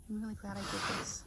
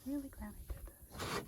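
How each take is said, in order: First: Said in the usual way. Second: "Really" said much softer and higher, almost a whisper. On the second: Real, not acted. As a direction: repeat "Really glad I did this" under the breath. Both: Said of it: "I don't know why I'm whispering".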